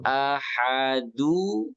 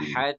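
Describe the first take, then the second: First: The word ends with an added 'u' vowel. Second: The word stops sharply on the final 'd'. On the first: The verse runs straight on into the next one. "Ini du baca, tambahin ni" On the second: The verse ends here with a stop. "Tadinya kan ahad"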